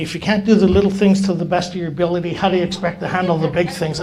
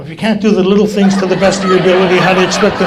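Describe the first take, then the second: First: Brisk, lightly voiced old-timer's rebuke; old-timer's lecture. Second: Loud, rapid mock scolding; parroted lecture. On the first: Old-timer behind him as he sets chairs, brisk lecture. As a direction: recite the mentor's stock scolding quickly. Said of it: "those old timers teaching me how to do chairs". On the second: Now scolding the new guy setting chairs, loud parroting. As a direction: belt out the old-timer's line for laughs. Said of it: "I'm going behind him".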